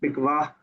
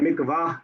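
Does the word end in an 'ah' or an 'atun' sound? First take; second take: ah; ah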